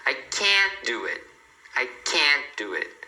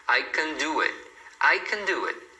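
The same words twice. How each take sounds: First: Can't wide open, slow and fully pronounced; stress on can't. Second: Can unstressed, weak short vowel; reduced can. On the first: Teacher shows the negative, can't stressed and drawn out. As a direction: lean hard on can't, open vowel, barely any T. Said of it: "a pessoa dá ênfase na, no auxiliar negativo". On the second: Teacher shows how the affirmative sounds, can reduced. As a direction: glide over can straight to do. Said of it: "você fala só um can. Ele é reduzido". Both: Shown as a demonstration.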